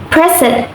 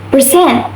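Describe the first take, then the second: First: "present" stressed on the first syllable, PRE-sent; PRE-sent, weight at the front; noun stress. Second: "present" stressed on the second syllable, pre-SENT; pre-SENT, weight at the back; verb stress. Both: Shown as a demonstration. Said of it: "stress can change the meaning".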